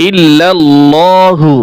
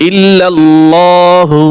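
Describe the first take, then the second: The two takes are said the same way.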